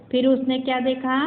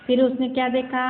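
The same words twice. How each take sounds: The two takes are said the same way.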